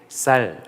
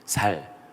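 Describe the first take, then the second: First: The first consonant is a tense s sound. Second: The first consonant is a plain s sound. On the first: "쌀 이렇게 해오라" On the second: "경상도 사람들에게 ... 살 이렇게"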